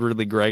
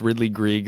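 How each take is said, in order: First: The surname's vowel sounds like 'egg'. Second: The surname's vowel sounds like 'eek'. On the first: "I've always heard Ridley Gregg" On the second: "if it's Ridley Grieg, that sounds funnier"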